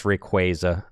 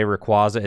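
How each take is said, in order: First: Rayquaza said "ray-KWAY-zuh"; KWAY in the middle of Rayquaza; official pronunciation. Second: Rayquaza said "rih-KWAH-zuh"; AH in the middle of Rayquaza; mistaken pronunciation. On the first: Streamer answering how to say it, Rayquaza pronounced with KWAY. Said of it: "It's Rayquaza". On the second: Streamer reading a chat question, Rayquaza pronounced with KWAH. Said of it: "How do you say Rayquaza?". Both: Shown as a demonstration.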